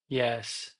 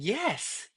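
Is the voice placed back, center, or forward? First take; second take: back; forward. First: The voice sounds pulled back and darker. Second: The voice sounds forward, bright and spread. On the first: The speaker is not happy. "It goes back" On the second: The speaker is happy. "are you happy? ... forward and spread"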